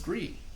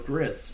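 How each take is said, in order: First: The name ends in a vowel, with no s. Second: The name ends with a clear s sound. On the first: "This is Gree" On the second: "if you want to pronounce it how it looks"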